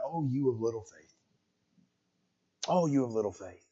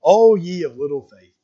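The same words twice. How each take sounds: First: Soft, much quieter whisper in the ear. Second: Slow, solemn voice of Jesus gently rebuking; a calm, unhurried rebuke as Jesus; Jesus speaking. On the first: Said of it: "just whispering". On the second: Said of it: "And Jesus utters these words". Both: Acted.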